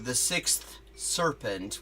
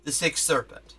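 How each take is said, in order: First: The th at the end of sixth is pronounced. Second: The th at the end of sixth is dropped. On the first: "how we pronounce it when we're trying to be extremely, like, excruciatingly precise" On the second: "they will just take the th off altogether"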